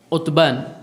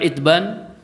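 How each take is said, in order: First: The name begins with an 'u' vowel. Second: The name begins with an 'i' vowel. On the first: "Di dhammah berarti Utban" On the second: "dengan dikasrah huruf ainnya kita baca Itban"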